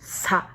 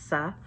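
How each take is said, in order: First: The s sound is tense and forceful. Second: The s sound is plain and relaxed. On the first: "we go to sangshit and we go sa, You should feel the tension" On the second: "this is not aspirated"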